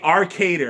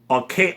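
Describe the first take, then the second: First: The name ends with an extra final syllable. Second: The name ends without an extra final syllable. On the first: The speaker calls it right. "I think it's Arcader" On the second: The speaker calls it wrong. "I noticed I was saying the name wrong"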